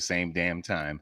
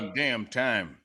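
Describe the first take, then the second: First: It is said plainly with little energy. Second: It is said with extra punch and energy. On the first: The speaker calls it wrong. "You can't say it like that" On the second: The speaker calls it right. "put a little umph on it"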